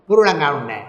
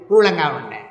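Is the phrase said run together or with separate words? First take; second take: run together; run together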